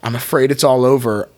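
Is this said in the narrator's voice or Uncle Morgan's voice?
narrator's voice. It is said in the narrator's ordinary voice.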